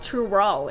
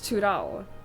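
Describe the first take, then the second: First: The R is a soft English-style R. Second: The R is a tapped Norwegian-style R. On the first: The speaker calls it wrong. "It's not" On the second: The speaker calls it right. "it's Tudal. Which is a Norwegian R"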